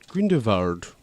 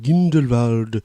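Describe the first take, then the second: First: The name is pronounced in a German-sounding way. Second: The name is pronounced in a plain English way. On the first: This is how the film's characters say it. "they say it very German" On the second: This is how the speaker prefers to say it. "as I like to call it"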